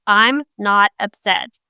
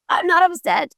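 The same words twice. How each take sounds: First: Said in the usual way. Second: "not" jumps high, then a dismissive fall; so-whatever tone. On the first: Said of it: "Their words said". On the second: Shown as a demonstration. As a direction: say it like you couldn't care less. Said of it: "But the way they said it".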